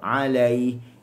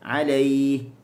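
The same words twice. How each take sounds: First: The l sound is said with the mouth open. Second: The l sound is said without opening the mouth. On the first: The speaker calls it right. "a buka, lam pun buka" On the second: The speaker calls it wrong. "di lam tu kita tak buka, kita terus alaih. Tak boleh"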